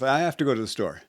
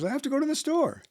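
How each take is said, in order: First: The voice is at a lower, calmer pitch. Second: The voice is pitched somewhat higher, more energetic. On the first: "I started with" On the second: "up a little bit, a little bit more energetic"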